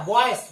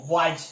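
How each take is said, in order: First: बॉयस ending with a hissed s; the wrong reading, boys with s; mock wrong boys. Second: बॉयज with a clear buzzing z at the end; lower, corrected boys with z. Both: Shown as a demonstration. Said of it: "no बॉयज".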